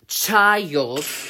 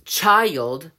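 First: The word is said slowly and drawn out. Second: The word is said at normal speed.

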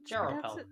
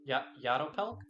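First: The name begins with a J sound. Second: The name begins with a Y sound. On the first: The speaker calls it wrong. "I don't think that's supposed to be pronounced like a J" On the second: The speaker calls it right. "I think it's a Y. Try again"

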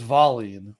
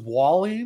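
First: The name begins with a V sound. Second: The name begins with a W sound. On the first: This is how it is said in Sweden. The speaker calls it right. "But Sweden, it was Vallin" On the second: This is how local fans assumed it was said. The speaker calls it wrong. "we all thought it was Wallin because it was W"

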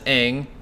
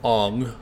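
First: The name is said as in the series. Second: The name is said as in the film. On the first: The speaker calls it right. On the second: The speaker calls it wrong.

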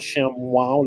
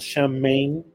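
First: The second part sounds like 'wow', with a w. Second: The second part sounds like 'heim', with an h. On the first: "like if it has a W somewhere" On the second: "Shouldn't that be called Shemheim or something like that?"

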